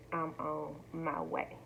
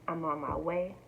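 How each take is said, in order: First: Slow emphatic. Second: Said in the usual way. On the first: Retold or imitated. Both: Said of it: "when I stated".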